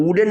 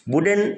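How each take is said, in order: First: वुडन said as ooden without the w; wrong ooden. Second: वुडन with a clear w, higher and stressed; correct wooden. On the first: Teacher shows pupils the wrong reading, mispronouncing. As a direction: mispronounce वुडन on purpose, dropping the w. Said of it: "वुडन नहीं पढ़ेंगे". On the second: Teacher gives pupils the correct word, emphatic model. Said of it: "क्या करेंगे?". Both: Shown as a demonstration.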